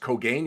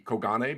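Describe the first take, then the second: First: The name is said in an English-style way. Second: The name is said in a Japanese-style way. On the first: The speaker calls it wrong. "most of people believe that Keith's last name was pronounced Kogain" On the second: The speaker calls it right. "even though it would be Kogane, because uh, again, it's a Japanese uh, surname"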